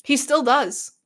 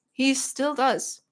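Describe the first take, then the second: First: Said in the usual way. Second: "He still does" drawn out slowly; slow emphasis. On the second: Real, not acted. Streamer vouches for Dad's gaming, slow emphasis on "He still does". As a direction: stretch each word of "He still does" for emphasis.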